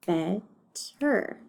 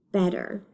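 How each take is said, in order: First: BETTER split in two, bet, then ter; broken into syllables. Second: Said in the usual way. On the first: Shown as a demonstration. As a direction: count out BETTER with a gap between syllables. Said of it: "decide how many syllables it has". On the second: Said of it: "let's read the word".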